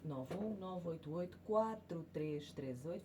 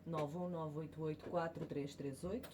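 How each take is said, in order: No difference in how they are said.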